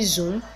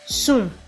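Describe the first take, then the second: First: The word begins with a buzzing z sound. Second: The word begins with a hissing s sound. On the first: The speaker calls it right. "Instead of saying zoom" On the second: The speaker calls it wrong. "some Nigerians pronounce the word zoom as soon"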